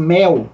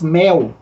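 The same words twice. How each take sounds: First: It is said with a Brazilian Portuguese accent. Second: The same.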